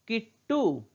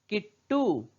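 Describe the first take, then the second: No difference in how they are said.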